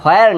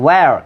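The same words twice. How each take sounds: First: "where" said as "hoar", h before the w; mistaken h pronunciation. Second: "where" said as "wer", straight on w; W without h. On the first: Teacher rejects this form for students, mistaken h pronunciation. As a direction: open "where" on an added h. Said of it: "এটা where না". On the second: Teacher gives students the real form, w without h. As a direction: push the w of "where", no h. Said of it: "এটা where". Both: Shown as a demonstration.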